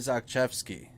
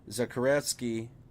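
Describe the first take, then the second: First: The surname's middle sounds like 'kshev'. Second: The surname's middle sounds like 'kharet'. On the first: The speaker calls it right. "That's how you say it" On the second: The speaker calls it wrong. "I need to get his name correct"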